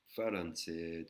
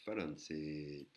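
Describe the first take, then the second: First: Slow "Faranset", with L for R; careful Thai pronunciation; Thai word. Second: Very slow "Faranset", vowel held long. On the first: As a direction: drawl "Faranset" with a long vowel. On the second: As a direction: stretch "Faranset" out slowly. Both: Shown as a demonstration. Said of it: "voyelle longue".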